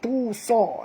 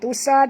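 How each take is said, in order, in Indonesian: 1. Vokal pertama dibaca panjang sebelum sa. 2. Vokal pertama pendek dan tersambung. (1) "tapi tu sa ya" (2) "bukan tusa"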